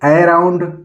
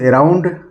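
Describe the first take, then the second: First: The word starts with an ae vowel. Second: The word starts with an e vowel.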